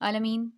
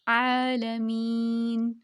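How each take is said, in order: First: The long vowel is cut short. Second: The long vowel is held for two counts. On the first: The speaker calls it wrong. "ऐसे नहीं करना" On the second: The speaker calls it right. "सुकून के साथ टू count"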